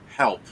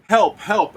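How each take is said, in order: First: Short, restrained plea for help; a single contained "help", pitch kept level; goblin's direct plea. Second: High, loud cry for help; goblin crying for help. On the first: Goblin looks at one player and pleads, restrained. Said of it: "he looks at you, Nori, and he goes". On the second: Goblin on the floor begging for help, loud high cry. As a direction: call out loudly from up high in pitch. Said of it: "on the floor going". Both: Acted.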